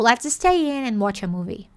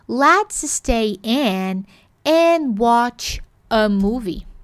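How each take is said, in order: First: The words are connected and run together. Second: Each word is said separately with crisp sounds. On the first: The speaker calls it right. "mais possível, mais natural" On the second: The speaker calls it wrong. "A quadrada a pronúncia"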